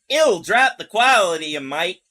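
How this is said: It is said in a put-on woman's accent.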